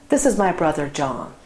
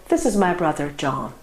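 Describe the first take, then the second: The two takes are said the same way.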